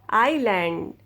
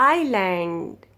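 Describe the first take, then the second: No difference in how they are said.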